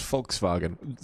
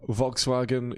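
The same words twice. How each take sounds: First: Volkswagen said the German way, F start and V middle; German-style Volkswagen, "Folks-vah-gen"; German pronunciation. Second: Said in the usual way. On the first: Shown as a demonstration. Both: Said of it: "is pronounced Volkswagen".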